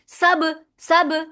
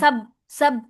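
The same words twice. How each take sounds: First: The final b is released with a bounce. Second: The final b is held with lips closed. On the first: The speaker calls it right. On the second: The speaker calls it wrong.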